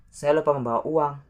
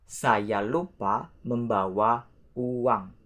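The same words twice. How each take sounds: First: Fast, lifted example sentence; quick natural repeat. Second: Drawn out, word by word; careful example with gaps between words; slow model sentence. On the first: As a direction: run together, fast and higher. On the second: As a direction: say it slowly for learners. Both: Shown as a demonstration. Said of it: "Let's say the example".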